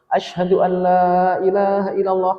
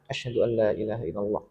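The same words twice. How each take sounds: First: The phrase is said loudly and forcefully. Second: The phrase is said quietly and softly. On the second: "Dibaca dulu dengan pelan"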